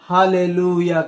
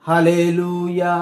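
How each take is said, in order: No difference in how they are said.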